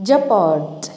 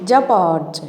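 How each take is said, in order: No difference in how they are said.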